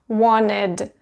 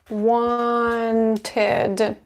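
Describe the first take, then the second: First: The t sound after n is dropped. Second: The t sound after n is pronounced.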